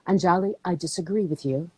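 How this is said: The voice is calm and controlled. This is a controlled debate. The speaker calls it right. "Debating is controlled vocal tone"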